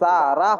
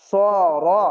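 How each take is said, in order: First: The vowels are a thin, light 'aa' sound. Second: The vowels are short, heavy and dark. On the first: The speaker calls it wrong. "সা রা হবে না" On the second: The speaker calls it right. "স র এরকম হবে"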